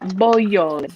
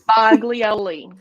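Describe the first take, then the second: First: The G is silent, giving a 'y' sound. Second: The G is pronounced as a hard sound. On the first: This is the original family pronunciation. The speaker calls it right. "The G is silent" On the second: This is the pronunciation the family adopted. The speaker calls it wrong. "versus Boglioli"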